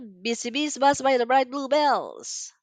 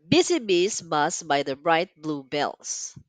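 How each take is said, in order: First: It is spoken at a very fast pace. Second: It is spoken at a slow pace. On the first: "Much faster" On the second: "let's get ready"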